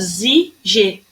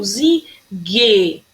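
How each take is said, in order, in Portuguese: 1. O g é um som suave, como zh. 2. O g tem som duro, como em "go". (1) "Se ele não tivesse essa letrinha U aqui, eu ia falar zig. E não é isso que ele quis dizer" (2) "ele tem um U, então a pronúncia dele é diferente. Eu falo zig"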